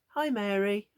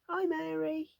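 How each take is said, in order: First: The voice stays at a normal pitch. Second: The voice jumps up high and loud.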